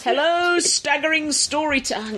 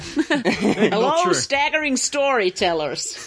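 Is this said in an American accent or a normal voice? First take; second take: normal; American. First: It is said in the speaker's normal accent. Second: It is said in a put-on American accent.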